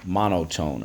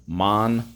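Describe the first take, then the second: First: Said in the usual way. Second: "Mon-o-tone" in three separated beats; "Mon-o-tone" broken up for spelling; syllable by syllable. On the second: Shown as a demonstration. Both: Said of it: "Three syllables".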